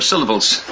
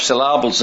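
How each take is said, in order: First: Said in the usual way. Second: "syllables" with the stress moved onto an open "LAH"; Nigerian-style syllables. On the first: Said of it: "instead of syllables". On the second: Retold or imitated. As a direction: say "syllables" as "sil-LAH-bles", teasing Nigerian English. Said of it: "always put the emphasis".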